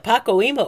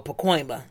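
First: Pacoima in four beats, PAH-koh-EE-muh; split pronunciation. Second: Pacoima in three beats, puh-KOY-muh; blended pronunciation. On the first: Co-host offering options, Pacoima as PAH-koh-EE-muh. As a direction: say Pacoima like "Paco-Eema". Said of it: "Is it Pacoima or Pacoima?". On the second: Co-host offering options, Pacoima as puh-KOY-muh. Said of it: "I was gonna say Pacoima". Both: Shown as a demonstration.

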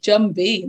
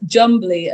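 First: Jumby with no L, ending in -bee; slow, careful "Jumby", ending in -bee; corrected name. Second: Jumbly with an L before the final vowel; slow "Jumbly", ending in -blee; mistaken name. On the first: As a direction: say "Jumby", dropping the L. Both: Real, not acted. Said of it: "sorry, Jumby, mustn't get them confused".

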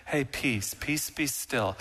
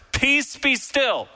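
First: Soft, gentle, slowed murmur; a meek, quiet hush; meek and mild. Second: Slow, high and loud command; a stern slow order to the sea; commanding rebuke. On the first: Shown as a demonstration. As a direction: soothe it like a timid mild man. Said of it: "meek and mild Jesus". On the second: Acted. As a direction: muzzle the storm with each word. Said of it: "it is literally to muzzle".

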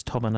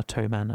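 First: "Toman" with a short o, like the name Tom. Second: "Toman" with a long o, like toe; Toman as TOE-man. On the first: Co-host voices the pronunciation debate, "Toman" with short o. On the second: Co-host voices the pronunciation debate, "Toman" with long o. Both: Shown as a demonstration. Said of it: "whether it's Toman or Toman".

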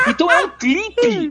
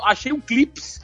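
First: "clipe" high and drawn out, no final S; correct singular. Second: "clips" with an S on a singular, high-pitched; misplaced plural S. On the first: Shown as a demonstration. Teacher correcting one found item, "clipe" without S. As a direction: correct it slowly to "clipe", ending in an open vowel without S. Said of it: "Um? Então é um clipe". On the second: Retold or imitated. Teacher mimicking a Paulistano finding one "clips", S added. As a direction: imitate someone saying "um clips" with final S. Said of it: "e falou".

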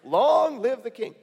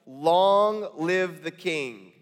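First: Long live the king, pitched higher and slower, fawning; butter up the king, overdone; hammed-up flattery. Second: Very slow, drawn out and grave; slow solemn reading. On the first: Nehemiah flattering the wicked king, higher and slow. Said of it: "this is Nehemiah saying". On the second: Shown as a demonstration. Cupbearer answering the king, very slow and solemn. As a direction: lay each word down slowly before the king. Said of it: "And notice this".

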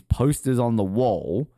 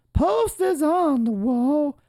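First: Said in the usual way. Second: Very high, slow, drawn-out POSTERS ON THE WALL; playful slow squeal on a held high pitch; high-pitched echo. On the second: Pretend. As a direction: stretch each word out in a silly high voice. High drawn-out echo of own phrase.

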